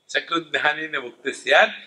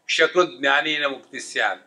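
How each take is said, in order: First: The first word begins with an s sound. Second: The first word begins with a sh sound. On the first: Knowing it once brings liberation. The speaker calls it right. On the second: Knowing fecal material brings liberation. The speaker calls it wrong.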